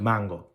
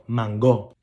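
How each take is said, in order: First: The stress is on the first syllable. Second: The stress is on the last syllable. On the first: This is how other Spanish speakers say it. "instead of" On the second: This is the Puerto Rican way of saying it. "we're the only ones who put an accent on the last O"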